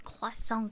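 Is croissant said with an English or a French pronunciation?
French. It is said with a French pronunciation. The speaker calls it right. "it's croissant, guys. The pronunciation is like this. The French, the real French accent"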